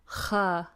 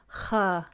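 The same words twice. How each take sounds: No difference in how they are said.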